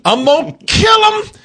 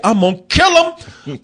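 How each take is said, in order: First: Yelled high and loud, losing it; shouted threat. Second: Said in the usual way. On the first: Retold or imitated. Viewer snapping at the bear, yelling high and loud. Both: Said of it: "you think".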